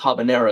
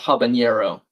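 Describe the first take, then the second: First: The n is a plain n sound. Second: The n is a palatal ny sound. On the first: The speaker calls it right. "the end doesn't actually have a tilde. I think it's just habanero" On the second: The speaker calls it wrong. "It's not habanero"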